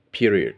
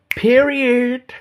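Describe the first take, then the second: First: Said in the usual way. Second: Shrieked in a very high pitch; squealed high. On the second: Retold or imitated. Repeats the word Peterson wrote.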